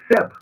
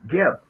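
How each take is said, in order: First: The name begins with an s sound. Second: The name begins with a hard g sound. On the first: The speaker calls it right. "we know that Seb is the proper pronunciation" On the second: The speaker calls it wrong. "Gardner calls them with a G"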